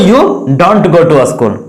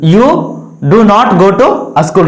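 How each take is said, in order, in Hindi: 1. 'Do not' contract होकर एक syllable की तरह बोला जाता है। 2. 'Do not' दो पूरे शब्दों की तरह बोला जाता है।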